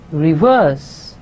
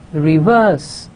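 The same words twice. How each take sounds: First: The stress is on the second syllable. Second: The stress is on the second syllable.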